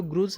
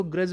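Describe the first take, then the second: First: ग्रुज mispronounced with the vowel of 'good'; wrong 'oo' vowel. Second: ग्रज rhyming with 'judge', no 'oo'; correct 'uh' vowel. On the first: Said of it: "इसको ग्रुज नहीं बोलेंगे". (ग्रुज में 'उ' की मात्रा वाला गलत उच्चारण) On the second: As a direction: say ग्रज with a short 'uh', like 'gruhj'. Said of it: "इसको ग्रज बोलेंगे". (ग्रज में छोटे 'अ' वाला सही उच्चारण) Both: Shown as a demonstration.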